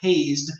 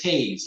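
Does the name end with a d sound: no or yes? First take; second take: yes; no. First: The name ends with a d sound. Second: The name ends with a z sound. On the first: The speaker calls it wrong. "I'm saying this differently, not hazed" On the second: The speaker calls it right. "This is Hayes, like Willie Mays Hayes"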